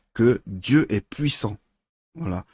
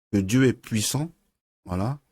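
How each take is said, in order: The two takes are said the same way.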